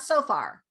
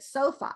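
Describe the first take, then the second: First: The word ends with an R sound. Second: The word ends with a schwa vowel. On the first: The speaker calls it wrong. "not so far" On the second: The speaker calls it right. "this word right here does not lend with end with an R. It's a schwa"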